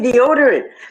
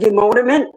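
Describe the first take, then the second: First: The word is said in its standard form. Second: The word is said with extra m sounds. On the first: The speaker calls it right. "I say deodorant" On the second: The speaker calls it wrong. "I don't say demoderment"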